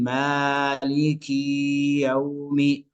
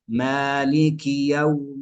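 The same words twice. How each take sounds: First: The short i vowels are drawn out long. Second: The short i vowels are kept brief. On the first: The speaker calls it wrong. "فيزيد في كسرة الكاف أو في كسرة الميم ... هذا خطأ" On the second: The speaker calls it right. "وإنما"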